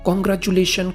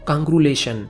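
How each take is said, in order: First: Every syllable of the word is said. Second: A middle syllable of the word is dropped. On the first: The speaker calls it right. "कॉन्ग्रेचुलेशन को" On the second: The speaker calls it wrong. "गलत उच्चारण"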